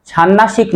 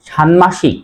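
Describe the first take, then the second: First: ষান্মাসিক as "shannashik", doubled n; wrong pronunciation. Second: ষান্মাসিক as "shanmashik", m sounded; correct pronunciation. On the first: Teacher rejects the error, doubled n replacing m in ষান্মাসিক. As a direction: say ষান্মাসিক dropping m for nn. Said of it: "ষান্মাসিক নয়". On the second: Teacher gives the rule's result, clear m in ষান্মাসিক. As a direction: say ষান্মাসিক with n then m. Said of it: "তাহলে উচ্চারণ হবে". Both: Shown as a demonstration.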